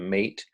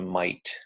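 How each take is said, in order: First: The vowel sounds like the 'ay' in 'day'. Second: The vowel sounds like the 'eye' in 'might'. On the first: "closer to mate" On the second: "Sometimes it's closer to might"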